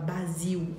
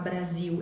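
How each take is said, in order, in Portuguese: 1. O r depois do b é omitido. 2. O r depois do b é pronunciado. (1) "ela fala Basil" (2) "ao invés de falar Brasil"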